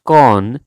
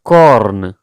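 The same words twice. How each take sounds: First: The R sound is silent after the vowel. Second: The R sound is pronounced after the vowel. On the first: The speaker calls it right. "Like R is silence in this word" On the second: The speaker calls it wrong. "It's not corn"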